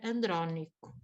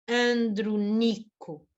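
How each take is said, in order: First: The stress falls on the second syllable. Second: The stress falls on the third syllable. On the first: The second-to-last vowel is short. The speaker calls it wrong. "Se ela fosse breve, era" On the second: The second-to-last vowel is long. The speaker calls it right. "sendo longa a penúltima sílaba"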